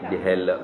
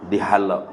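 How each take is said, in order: First: The root's first vowel sounds like 'e'. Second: The root's first vowel sounds like 'a'. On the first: The speaker calls it wrong. "Silap tu" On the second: The speaker calls it right. "Halak tu makna dibiar"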